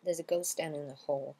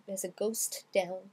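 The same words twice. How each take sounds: First: "ghost down" flowing as "ghos-down"; T dropped, linked. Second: Slow "ghost down", T released before the D; separate T and D. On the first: Teacher gives the natural version, "ghost down" linked with hidden T. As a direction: run "ghost down in the hall" together without the T. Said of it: "le T est occulté". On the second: Teacher shows what isn't said, "ghost down" with separate T and D. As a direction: split "ghost" from "down", sounding the final T. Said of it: "on dira pas". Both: Shown as a demonstration.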